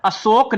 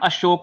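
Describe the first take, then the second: First: The middle consonant is a plain s sound. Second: The middle consonant is a sh sound. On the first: The speaker calls it wrong. "इसका उच्चारण अशोक नहीं होता" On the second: The speaker calls it right. "इसका उच्चारण अशोक होता है"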